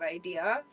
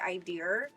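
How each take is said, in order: First: It ends with no R sound. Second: It ends with an added R sound.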